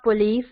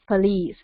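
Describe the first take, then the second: First: "police" as po-LEES with a full o; mispronounced police. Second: "police" as puh-LEES; weak first vowel in "police"; corrected police. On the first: Teacher showing a common mistake, "police" as poh-LEES. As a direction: round first vowel in "police". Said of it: "It's not police". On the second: Teacher giving the correct word, "police" as puh-LEES. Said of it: "It's not police, it's police". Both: Shown as a demonstration.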